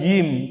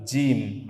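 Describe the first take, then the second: First: The j sound is made without a hiss. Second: The j sound is made with a hiss. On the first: The speaker calls it right. "bukan jim" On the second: The speaker calls it wrong. "kalau masih desis begitu kurang pas itu"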